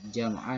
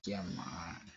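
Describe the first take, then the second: First: The word ends with a short vowel plus n. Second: The word ends with a lengthened vowel, no n.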